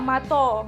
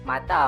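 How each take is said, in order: First: The final vowel is an o sound. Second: The final vowel is an a sound.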